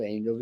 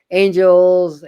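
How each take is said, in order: First: Quiet, lower trailing repeat; soft fade. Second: High, loud opening call. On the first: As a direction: let it fade away. Repeated word fading to soft. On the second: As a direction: belt the word out. Calling out angels, then fading. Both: Acted.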